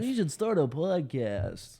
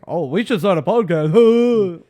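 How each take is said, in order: First: Mock basic viewer. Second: Slow, louder mock of the tired joke; mocking the cliché. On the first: Mimicking the basic viewer joke. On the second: Mocking the podcast cliché to his co-host, slow and loud. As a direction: draw out the same old podcast joke. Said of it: "that's the first thing I say".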